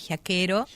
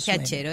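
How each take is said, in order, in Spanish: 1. La consonante del medio es un sonido k. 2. La consonante del medio es un sonido ch. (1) "Está deformado, sería originalmente giaquero" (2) "Es así, giachero"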